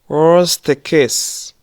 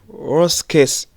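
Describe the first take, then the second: First: The t at the end of worst is pronounced. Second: The t at the end of worst is dropped. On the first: The speaker calls it wrong. "Ntago tuvuga ngo" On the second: The speaker calls it right. "Here we don't pronounce that t of worst"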